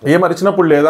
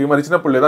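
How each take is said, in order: First: ఏం అరిచినప్పుడు లేదా pitched up and pushed, a mild mock retort; a lightly imitated heated comeback; mock heated question, slightly raised. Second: Said in the usual way. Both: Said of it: "simple".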